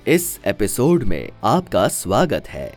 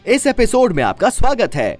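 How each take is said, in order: First: The line is spoken slowly and calmly. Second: The line is spoken fast and excitedly. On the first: "ये थोड़ा मैंने slow बोला" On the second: "ये मैंने fast बोला और एक्साइटमेंट के साथ बोला"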